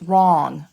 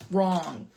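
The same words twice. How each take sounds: First: Loud. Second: Said in the usual way. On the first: Real, not acted. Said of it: "loud correction to viewers". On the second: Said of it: "repeats, voice back to usual".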